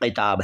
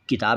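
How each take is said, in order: First: It begins with a deep back q sound. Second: It begins with a plain front k sound. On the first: It means the neck of a kurta. The speaker calls it right. "ये किताब है" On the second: It means a book. The speaker calls it wrong. "किताब नहीं है"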